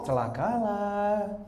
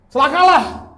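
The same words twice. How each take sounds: First: It is said softly and slowly, without force. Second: It is said loudly and forcefully, with energy. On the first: The warning sounds weak and meek. The speaker calls it wrong. "Gak mungkin kan dia ngomong" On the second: The warning is firm and serious. The speaker calls it right. "Dia ngomongnya dengan celakalah"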